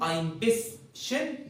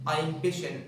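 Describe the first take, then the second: First: Both an s and an sh sound are pronounced. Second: Only an sh sound is pronounced, no s. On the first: "زي ما هي كده عادي" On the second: "تنطق الشين ما تنطقش السين"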